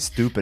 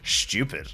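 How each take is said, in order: First: The word begins with a plain st sound. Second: The word begins with an sht sound. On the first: "the American say, way of saying it" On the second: "the Irish way, stupid. It's hilarious with the extra S H in there"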